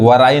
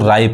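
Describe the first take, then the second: First: The w sound is pronounced at the start. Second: The w sound is silent at the start. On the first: The speaker calls it wrong. "इसको वराई नहीं कहेंगे" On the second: The speaker calls it right. "डब्ल्यू नहीं पढ़ाता है"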